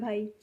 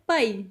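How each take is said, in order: First: The word is said softly and politely. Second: The word is said forcefully and loudly.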